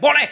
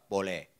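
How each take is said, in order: First: Short, loud yelled reply; retold shout. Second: Low, soft, half-hearted reply. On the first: Pastor instantly answering a young child's parent, shouted. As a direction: fire it back as a shout. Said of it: "Langsung teriak". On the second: Retold or imitated. Pastor agreeing to pray for a forty-two-year-old, half-voiced. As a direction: answer reluctantly at half volume. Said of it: "Saya jawab dengan setengah suara".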